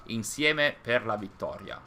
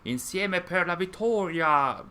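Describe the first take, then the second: First: The vowels are said plainly, without strong emphasis. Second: The vowels are hit hard with forceful emphasis. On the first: This is how people normally say it. The speaker calls it right. "without uh, any uh, strong accent" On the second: The characters sound invigorated and powerful. The speaker calls it wrong. "a strong accent on the vowels because they wanted to make it uh, feel more powerful"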